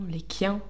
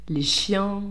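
First: The word begins with a 'k' sound. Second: The word begins with an 'sh' sound.

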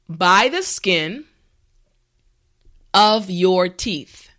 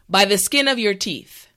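First: The phrase is said slowly and carefully. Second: The phrase is said at normal speed. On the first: "repeat after me" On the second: "now let's say it at a normal pace"

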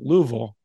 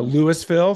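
First: It is said the local way, as Lou-vul. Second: It is said the outsider way, three syllables.

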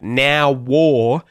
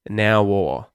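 First: A strong, full W sound joins the words. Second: A light, subtle W sound joins the words. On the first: The speaker calls it wrong. "don't do it like now war" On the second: The speaker calls it right. "but subtly"

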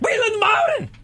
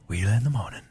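First: It is screamed loudly. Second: It is said softly and gently.

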